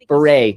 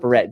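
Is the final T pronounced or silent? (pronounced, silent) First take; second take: silent; pronounced. First: The final T is silent. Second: The final T is pronounced. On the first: The speaker calls it right. "Silent, silent T" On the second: The speaker calls it wrong. "not beret"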